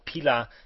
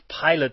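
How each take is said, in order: First: The name is said with French pronunciation. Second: The name is said with English pronunciation. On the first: "if you pronounce it in the French way" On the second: "if you pronounce it in the English way"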